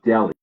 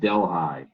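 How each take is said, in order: First: It is said like the Indian city's name. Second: It is said the way New Yorkers say it. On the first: The speaker calls it right. "the town in India, it looks like Delhi" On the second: The speaker calls it wrong. "in New York they pronounce it Delhi"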